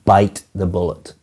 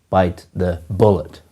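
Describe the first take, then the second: First: The stress is on the word bite. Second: The stress is on the word bullet.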